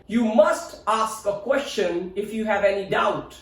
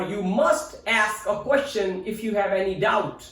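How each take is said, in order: First: "ask" with long AH, "ahsk"; British pronunciation. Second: "ask" with short A as in "cat"; American pronunciation. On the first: Teacher's British example sentence, "ask" as "ahsk". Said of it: "In British English". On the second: Teacher's American example sentence, "ask" as in "cat". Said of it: "In American pronunciation". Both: Shown as a demonstration.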